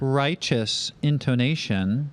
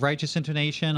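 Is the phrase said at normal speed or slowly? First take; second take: slowly; normal. First: The phrase is said more slowly and deliberately. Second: The phrase is said at a normal pace.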